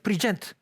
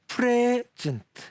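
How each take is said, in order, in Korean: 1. 강세는 두 번째 음절에 있습니다. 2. 강세는 첫 번째 음절에 있습니다. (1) "액센트가 뒤로 가면" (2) "앞에 액센트를 주고"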